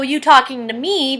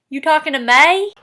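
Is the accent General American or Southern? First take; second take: General American; Southern. First: The last word has a plain ee vowel. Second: The last word's vowel sounds closer to ay.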